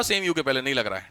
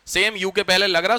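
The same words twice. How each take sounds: First: "सेम" pressed, then lower, softer falling line; teacher marks the case where N does not fit; contrastive stress. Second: Teacher marks the case where N fits; contrastive stress. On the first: Teacher showing students the difference, lower and softer. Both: Shown as a demonstration. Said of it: "difference समझ में आ रहा?".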